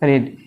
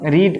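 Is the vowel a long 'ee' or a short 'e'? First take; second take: short e; long ee. First: The vowel is a short 'e' sound. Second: The vowel is a long 'ee' sound. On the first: The action happened in the past. "কিন্তু past টেন্সে উচ্চারণ হলো রেড" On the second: The action happens in the present. "দেখো রিড উচ্চারণ"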